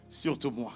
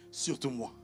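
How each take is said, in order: Both takes have the same delivery.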